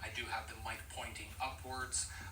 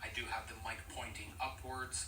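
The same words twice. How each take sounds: First: Background noise is left in, without noise cancellation. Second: Background noise is filtered out by noise cancellation. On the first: "I do have the noise cancellation set to off right now" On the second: "now we are listening to noise cancellation on"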